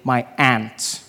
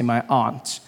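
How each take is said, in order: First: Aunt is said like ant, American style. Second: Aunt is said in the speaker's home accent.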